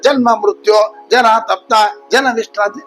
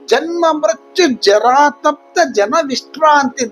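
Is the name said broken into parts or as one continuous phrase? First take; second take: broken; continuous. First: The name is broken up with breaks between parts. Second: The name is said as one continuous unit. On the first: The speaker calls it wrong. "ಈ ನಾಮದ ಮಧ್ಯದಲ್ಲಿ ಒಡೆದು ... ಹಾಗೆ ಹೇಳಬಾರದು" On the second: The speaker calls it right. "ಒಂದೇ ನಾಮದಲ್ಲಿ ಅದನ್ನ ಹೇಳಬೇಕು"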